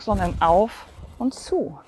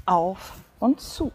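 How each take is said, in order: First: Slow, with the first "auf" leaned on hard; stress on auf. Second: Slow, the opening "Auf" weighted, "und zu" lighter; stress on auf. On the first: Fitness coach to class, slowly stressing the word auf. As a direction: slowly hit "auf" in "auf und zu". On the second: Coach shows the class the rhythm, slowly stressing Auf. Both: Shown as a demonstration. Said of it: "Die Betonung liegt auf auf".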